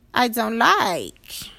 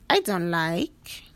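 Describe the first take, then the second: First: Louder and slow, leaning on I; emphatic complaint. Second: Said in the usual way. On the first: Pretend. Telling herself what she dislikes, slow and firm. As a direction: stretch it out firmly. Voicing self-talk, repeated.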